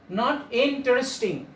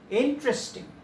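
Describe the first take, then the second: First: Every letter, including the second vowel, is sounded. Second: The second vowel is left silent. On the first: The speaker calls it wrong. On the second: The speaker calls it right. "there are also some uh, silent letters"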